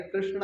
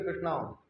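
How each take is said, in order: First: "कृष्ण" with a short final a; correct short ending. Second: "कृष्णा" with a long final aa; mistaken long ending. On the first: Teacher correcting devotees, "कृष्ण" with short final a. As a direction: end "कृष्ण" on a light, unstretched a. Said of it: "अच्छा, कृष्णा नहीं है". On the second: Teacher quoting devotees' error, "कृष्णा" ending in long aa. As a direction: stretch the last vowel of "कृष्णा" to aa. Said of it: "आप लोग बोलते हो कृष्णा". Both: Shown as a demonstration.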